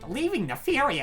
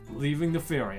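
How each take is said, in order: First: It is said in a nerdy anime-style voice. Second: It is said in a macho, confident voice. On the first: "Like, like nerd, I don't know. Anime, anime guy" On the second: "I'll just do him with the Chad voice"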